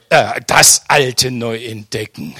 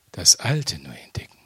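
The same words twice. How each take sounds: First: Said in the usual way. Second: Soft, lower whisper of the phrase. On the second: Shown as a demonstration. Preacher to congregation, savouring his discovery: whispered. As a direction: let the words sink in, breathed out.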